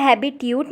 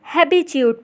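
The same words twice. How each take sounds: First: "habitude" with a hard t, "habi-tyood"; plain t before the "yoo" in "habitude"; mispronounced habitude. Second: "habitude" with a ch sound, "habi-chood"; corrected habitude. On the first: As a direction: say "habitude" wrongly as "HA-bi-tyoot". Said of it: "इसे habitude नहीं पढ़ेंगे". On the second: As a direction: say "habitude" carefully as "HA-bi-chyoot". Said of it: "habitude पढ़ेंगे". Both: Shown as a demonstration.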